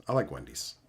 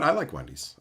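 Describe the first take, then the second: First: Much lower, softer, mock-serious; deep put-on voice. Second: Said in the usual way. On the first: Answering Petey about Wendy's in a deep goofy voice. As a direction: drop into a low silly voice for "I like Wendy's". Repeats line in two voices.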